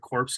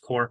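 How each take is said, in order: First: The word is pronounced the way it is spelled. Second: The word is not pronounced the way it's spelled. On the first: The speaker calls it wrong. "I always read it like that, because that's how it reads" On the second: The speaker calls it right. "but it's Corps"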